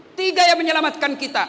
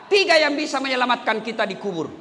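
First: Tekanan keras pada "Tiga"; "Tiga" diucapkan lebih keras dan tegas; stress on tiga. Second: Said in the usual way. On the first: Shown as a demonstration. (ulangi dengan tekanan pada "Tiga")

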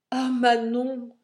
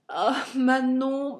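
First: Ton tendre. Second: «Ah, Manon» soupiré, lent et plus haut; avec un soupir. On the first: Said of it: "lui dis-je d'un ton tendre". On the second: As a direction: laisser échapper le nom dans un long soupir. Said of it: "repris-je avec un soupir". (amant trahi qui soupire le nom de Manon) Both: Acted.

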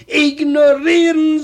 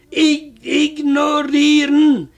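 First: Ignorieren repeated loudly so she hears it; repeated louder. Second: Ich ignorieren said slowly, syllable by syllable; slow repeat. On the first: Husband repeating to his wife who didn't catch it, louder. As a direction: Ignorieren said again, louder, to someone who missed it. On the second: Husband slowly spelling the word out for his wife. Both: Retold or imitated. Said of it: "was, sagt sie?".

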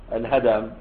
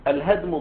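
First: الهدم with a short a after the d; vowelled dal. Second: الهدم with no vowel after the d; unvowelled dal. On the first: Teacher corrects the reading for students, vowelled dal pronunciation. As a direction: say الهدم as al-hadam, lower. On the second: Teacher first reads the dictionary entry, dal left still. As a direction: say الهدم as al-hadm. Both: Shown as a demonstration. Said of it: "هذا بالتحريك".

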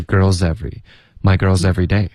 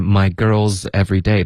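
First: Put-on "girls every" joined as girl-zevery; "girls every day" run together without a break; linked words. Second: Said in the usual way. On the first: Shown as a demonstration. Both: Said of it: "这里也连读了".

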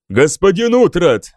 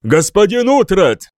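First: Sharp call. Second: Shouted. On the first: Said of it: "резко окликнул Альфред". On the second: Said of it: "снова крикнул король". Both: A narrator's reading.

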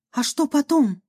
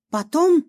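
First: Said in the usual way. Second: High, rising "Потом?" as if caught off guard; puzzled echo. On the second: Acted. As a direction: toss "Потом?" back in mild surprise. Amalia echoes, puzzled.

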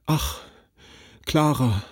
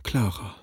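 First: Mild, sighing lament; a touch of broken despair. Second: Softer, dying-away lament; understated hopeless sigh; fading despairing sigh. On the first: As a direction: sigh her name out in hopeless grief. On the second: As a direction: let her name sink away hopelessly. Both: A narrator's reading. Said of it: "seufzte wie aufgelöst in trostlosem Jammer".

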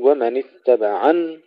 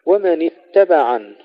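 First: اتبعن with ع shoved and ن doubled; wrong pushed ain. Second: اتبعن with plain ع and single ن; correct ittabaʿan. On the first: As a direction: push the ع of اتبعن too hard. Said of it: "ولا نقول". (ومن اتبعن بتشديد النون خطأ) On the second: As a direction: say ومن اتبعن without pushing the ع. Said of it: "لا ندفع العين حتى لا نشدد النون". (ومن اتبعن دون تشديد النون) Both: Shown as a demonstration.

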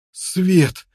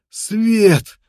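First: A high, joyful first cry; glad cry. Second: Much higher and louder joyful yell; joyful shout. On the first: Prisoner sees daylight, excited cry. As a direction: call out at the sight of daylight. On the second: Prisoner sees daylight, loud joyful shout. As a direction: burst out even bigger the second time. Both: A narrator's reading. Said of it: "закричал воспрянувший духом неудачник".

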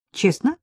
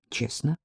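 First: Rising question, pitch jumping up on «Честно?»; «Честно?» asked with a high lift at the end; questioning tune. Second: «Честно.» said low and quiet, settled and final; «Честно.» dropped down and soft as a firm answer; flat statement. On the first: The man asking the woman whether she wants honesty, rising tune. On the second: The woman answering him that yes, she wants honesty, low and soft. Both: Acted.

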